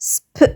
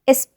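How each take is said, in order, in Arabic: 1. الـ s يبدأ مباشرة بدون صوت حركة. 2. يأتي صوت حركة قبل الـ s. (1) "لأ sp" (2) "ما جبتش vowel قبل الإس وقلت اسب"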